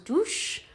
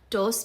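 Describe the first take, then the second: First: The final S is a soft sh sound. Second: The final S is a crisp s sound.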